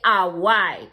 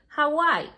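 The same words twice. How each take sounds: First: The first H is silent. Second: The first H is sounded. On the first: The speaker calls it wrong. "you don't say Hawaii" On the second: The speaker calls it right. "pronounce it as it is"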